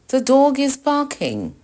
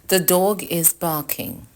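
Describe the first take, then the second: First: It is said in an alarmed, worried tone. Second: It is said in a plain, calm tone.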